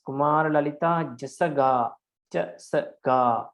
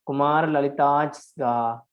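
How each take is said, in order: First: "Kumar Lalita Jasaga" with a vowel put into every consonant, ja-sa-ga; Burmese reading. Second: "Kumar Lalitaj Sga" with the j joined to the previous vowel and "Sga" as a bare consonant cluster, no vowel added. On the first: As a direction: say "Jasaga" as three full syllables, the Burmese way. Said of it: "in Burma, they read this as". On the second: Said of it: "joining with the previous vowel". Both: Shown as a demonstration.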